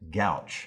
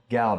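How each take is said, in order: First: The word ends with a 'ch' sound. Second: The word ends with a 't' sound. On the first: The speaker calls it wrong. "You might hear somebody pronounce it gouch" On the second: The speaker calls it right. "Gout is right"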